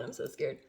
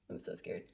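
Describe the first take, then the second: First: Scared. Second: Much lower, softer, breathy dread; scared whisper. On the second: Before ripping the strip, whispered fear. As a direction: whisper your fear to yourself. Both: Real, not acted.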